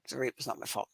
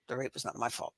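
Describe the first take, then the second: First: It sounds flat and mechanical, just going through motions. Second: The same.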